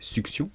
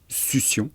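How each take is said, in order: First: The double c is said with a k-s sound. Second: The double c is said with an s sound. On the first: This is the form that should be used. "on devrait prononcer succion" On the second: This is the form everyone actually uses. "mais en fait tout le monde dit succion"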